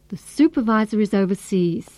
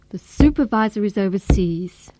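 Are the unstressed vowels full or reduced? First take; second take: reduced; reduced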